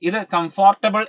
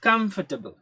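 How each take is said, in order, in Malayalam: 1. നടുവിലെ 'or' അക്ഷരം പൂർണ്ണമായി ഉച്ചരിക്കുന്നു. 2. നടുവിലെ 'or' അക്ഷരം ഞെരുക്കി ഒഴിവാക്കുന്നു. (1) "എന്നൊന്നും നമ്മൾ ഒരിക്കലും പ്രൊനൗൺസ് ചെയ്യാൻ പാടില്ല" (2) "ഇതിന്റെ എക്സാക്ട് ആ ഒരു നമ്മൾ പ്രൊനൗൺസ് ചെയ്യുന്ന"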